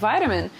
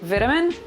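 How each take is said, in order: First: It is said with an American pronunciation. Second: It is said with a British pronunciation.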